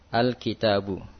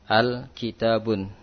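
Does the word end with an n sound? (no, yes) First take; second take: no; yes. First: The word ends on a vowel without n. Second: The word ends with an added n sound. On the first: The speaker calls it right. "Kitabun atau al-kitabu" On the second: The speaker calls it wrong. "tidak diucapkan dengan al-kitabun"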